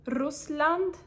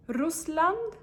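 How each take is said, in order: Both takes have the same delivery.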